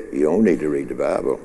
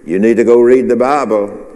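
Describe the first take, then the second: First: Low, soft, quick tempter's aside; the other voice. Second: Clear, firm prompting from above; Holy Spirit's voice. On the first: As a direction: slip it in low and quick, dismissively. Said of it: "this other voice over here said". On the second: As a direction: urge it openly, at full voice. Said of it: "the Holy Spirit say to you". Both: Acted.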